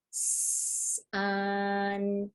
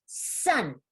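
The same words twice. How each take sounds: First: Drawn-out S, then a long level vowel; really slow. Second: Sounds squeezed into one quick word; super fast. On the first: Teacher modelling the word before blending it, really slow. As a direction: hold each sound before moving on. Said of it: "elongating those sounds". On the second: Teacher showing students how to blend, super fast. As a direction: blend it into a single short, crisp word. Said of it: "Super fast". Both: Shown as a demonstration.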